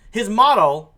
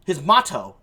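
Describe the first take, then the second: First: Blur the T in "motto" towards "moddle"; slurred motto. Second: "motto" with a crisp T and full final O; clear motto. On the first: Host introducing the hacker's creed, "motto" slurred like "model". Says word, then says it again corrected. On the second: Host correcting the hacker's creed, "motto" with crisp T. Repeats the word more clearly. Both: Real, not acted.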